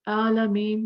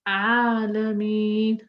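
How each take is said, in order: First: The opening ain sound is weak. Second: The opening ain sound is strong. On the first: The speaker calls it wrong. "Don't say alameen" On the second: The speaker calls it right. "Make your ain strong"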